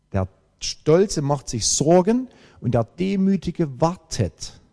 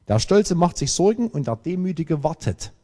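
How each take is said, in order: First: Slow, weighty "Stolze", "Sorgen" and "wartet" set apart; emphatic repeat. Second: Said in the usual way. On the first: Real, not acted. Preacher repeats his key sentence to the congregation, slow and emphatic. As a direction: lean slowly on "Sorgen" and "wartet".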